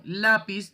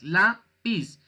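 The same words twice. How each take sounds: First: Said in the usual way. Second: "lápiz" broken as "lá... piz", first part higher; split into syllables. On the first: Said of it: "tiene dos sílabas". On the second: Shown as a demonstration. Teacher counting two syllables for students, "lápiz" syllable by syllable. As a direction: say "lápiz" in two separate beats. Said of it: "Lápiz tiene dos sílabas".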